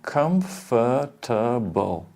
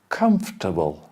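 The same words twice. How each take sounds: First: Every syllable of the word is pronounced. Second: The middle syllable of the word is dropped. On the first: The speaker calls it wrong. "Before elision" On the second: The speaker calls it right. "We say comfortable"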